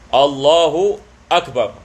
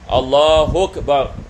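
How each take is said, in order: First: Akbar starts with a clear glottal stop. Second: Akbar runs straight on from Allahu. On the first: The speaker calls it right. "Yang ini kita menghidupkan alif" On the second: The speaker calls it wrong. "kita tidak boleh baca misalan"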